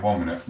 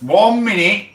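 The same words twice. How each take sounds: First: Said in the usual way. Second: High, loud shout across the room; loud call. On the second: Real, not acted. Streamer shouting to someone off-mic, loud call. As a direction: yell it to someone in another room.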